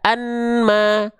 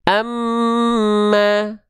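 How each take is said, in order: First: The n is heard separately before the m. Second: The n merges into a nasalized doubled m. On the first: The speaker calls it wrong. "nggak dibaca anma" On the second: The speaker calls it right. "bunyi an-nya masuk ke am"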